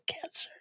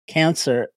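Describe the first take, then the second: First: The word is whispered. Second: The word is spoken in a normal voice. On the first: The illness is treated as unspeakable. The speaker calls it wrong. "It was like to whisper it like" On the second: The illness is named openly. The speaker calls it right. "in a normal voice"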